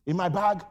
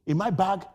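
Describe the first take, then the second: No difference in how they are said.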